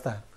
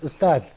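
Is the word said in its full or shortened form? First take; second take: shortened; full. First: The word is said in a shortened form. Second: The word is said in its full form. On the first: This is the everyday local form. "the peoples in local uh, local language use" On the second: This is the classical formal form. "this word is ustaz"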